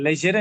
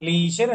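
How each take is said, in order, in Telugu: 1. మొదటి అచ్చు చిన్న 'eh' శబ్దం. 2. మొదటి అచ్చు పొడవైన 'ee' శబ్దం. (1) "లెజర్ అని చదవాలి" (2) "లీజర్ అని చదవకూడదు"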